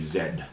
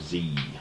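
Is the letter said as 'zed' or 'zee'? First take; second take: zed; zee. First: It is said the Australian way, as zed. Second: It is said the American way, as zee.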